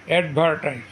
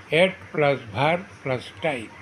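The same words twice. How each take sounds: First: Said in the usual way. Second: "add", "ভার", "type" as three separate beats; split into syllables. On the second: Shown as a demonstration. Teacher showing three syllables, "add", "ভার", "type" said apart. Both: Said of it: "তিনটি syllable থাকে".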